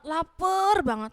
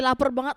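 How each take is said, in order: First: "lapar banget" stretched slowly, pitched higher; drawn-out emphasis. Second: Said in the usual way. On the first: Shown as a demonstration. Teacher showing children extreme hunger, "lapar banget" drawn out. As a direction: draw out "lapar" in a raised voice. Repeats phrase to stress the hunger.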